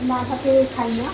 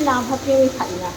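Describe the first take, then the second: No difference in how they are said.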